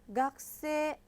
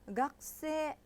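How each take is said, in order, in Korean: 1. k 소리 뒤의 모음은 거의 안 들려요. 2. k 소리 뒤의 모음은 거의 안 들려요.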